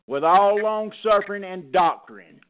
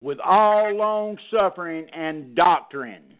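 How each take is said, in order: First: Said in the usual way. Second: Slow, weight landing on doctrine; slow repeat that hammers doctrine; stress on doctrine. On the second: Shown as a demonstration. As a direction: lean hard on the word doctrine, slowly. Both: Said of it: "I put emphasis on the word doctrine".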